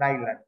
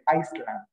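First: No s sound is pronounced in the middle. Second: An s sound is pronounced in the middle. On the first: The speaker calls it right. "the S is silent" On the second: The speaker calls it wrong. "some people say Iceland because of the S"

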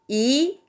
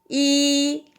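First: It is said with the second tone. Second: It is said with the first tone. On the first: "2성" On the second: "1성"

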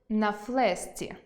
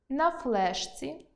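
First: The consonant before the ending is assimilated. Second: The consonant before the ending is not assimilated. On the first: The speaker calls it right. "Тут відбувається уподібнення. Треба вимовляти" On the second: The speaker calls it wrong. "у яких я роблю орфоепічні помилки"

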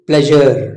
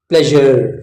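No difference in how they are said.

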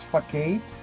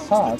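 First: The c is said with a hard k sound. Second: The c is said with a soft s sound. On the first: The speaker calls it wrong. "I used to read like as facade" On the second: The speaker calls it right. "now I know it's"

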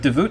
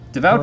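First: The second syllable sounds Canadian, like 'boot'. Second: The vowel in the second syllable sounds plain. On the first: "devout sounds Canadian" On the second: "Devout just doesn't sound right"

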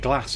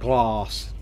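First: It is said in a northern English accent. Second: It is said in a southern English accent. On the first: This is how the speaker naturally says it. "I say Glass ... I'm super northern" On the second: This is how people elsewhere in the UK say it. "and not Glass"

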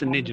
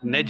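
First: The vowel is a short i sound. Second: The vowel sounds like the e in edge. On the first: The speaker calls it right. "it's nij" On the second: The speaker calls it wrong. "it's not nedge"

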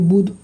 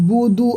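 First: The word ends on a bare consonant. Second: The word ends with a final vowel. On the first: The reader stops on this word. "দাঁড়ানোর ক্ষেত্রে বুধ হয়ে যাবে বুধ" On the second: The reader continues without stopping. "মা আ বুদু আছে"

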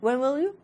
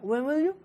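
First: The words run together with little mouth opening. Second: The words run together with little mouth opening.

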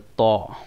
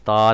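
First: The letter is said heavy, with a rounded vowel. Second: The letter is said light, with a clear 'a'. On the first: The speaker calls it right. "इसको मोटा करके पढ़ेंगे" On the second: The speaker calls it wrong. "तो की जगह पर आपको ता नहीं पढ़ना"

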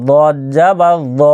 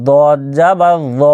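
The two takes are said the same way.

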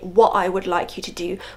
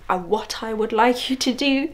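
First: The T in 'what' is dropped. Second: The T in 'what' is clearly pronounced. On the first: This is the speaker's earlier habit. "the old me would say" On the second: This is the speaker's new, deliberate habit. "I put the T, I've introduced the T"

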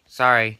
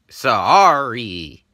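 First: The apology sounds careless and unmeant. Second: The apology sounds sincere and meant.

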